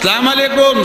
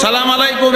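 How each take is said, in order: The two takes are said the same way.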